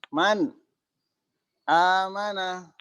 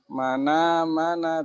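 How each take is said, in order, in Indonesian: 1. Hamzah ada di awal kata kedua. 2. Huruf n langsung bertemu dengan vokal. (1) "Memindahkan harokat hamzah" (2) "Menjadi mana mana"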